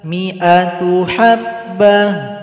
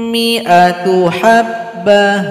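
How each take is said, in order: No difference in how they are said.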